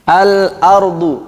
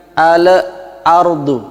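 First: Al-ardu with a tight, unbounced l; correct al. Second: Al-ardu with an echo vowel after the l, like al-aardu; wrong bounced al. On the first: Teacher gives the correct Al-ardu before the wrong one. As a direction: say Al-ardu slowly and cleanly. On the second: Teacher demonstrates the mistaken al-ardu, bounced l. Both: Shown as a demonstration.

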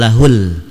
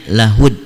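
First: LAHUL ending on a held l; slow "lahul", lingering on the final l; unassimilated lam. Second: LAHUD ending on d, the l left silent; assimilated lam. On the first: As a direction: say "lahul" with the l sounded. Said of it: "bukan lahul". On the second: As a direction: say "lahud", closing straight onto the d. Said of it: "dan dibacanya lahud". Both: Shown as a demonstration.

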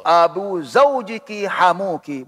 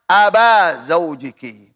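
First: Abu Zaujiki with u, "Abu" said as a-bu; correct reading. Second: Slow, "Aba Zaujiki" with a in place of u; drawn out as the incorrect a-ending "Aba"; wrong reading. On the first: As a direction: read Abu with the u ending, the correct case. (dibaca Abu dengan bunyi u) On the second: (dibaca salah Aba, pelan) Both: Shown as a demonstration. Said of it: "Tidak boleh baca".

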